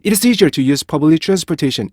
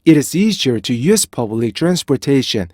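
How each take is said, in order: First: 'It is easier' hurried together; compressed beat on 'It is'; linked, less rhythmic. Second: Measured sentence with a lively beat from 'It is'; rhythmic intonation. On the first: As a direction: run the sentence on without a break after 'It'. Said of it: "이렇게 읽게 돼요". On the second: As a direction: swing the pitch on 'is easier'. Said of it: "인토네이션의 형성이 되고요". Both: Shown as a demonstration.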